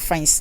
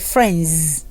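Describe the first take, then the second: First: The word ends in a voiceless s sound. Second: The word ends in a voiced z sound. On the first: The speaker calls it wrong. "So don't say friends" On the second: The speaker calls it right. "No. Say friends"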